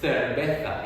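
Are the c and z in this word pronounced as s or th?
th. The c and z sound like English th. "they would say cerveza in Spain"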